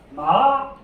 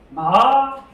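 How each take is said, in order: First: The pitch starts mid and rises upward. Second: The pitch starts mid and rises upward.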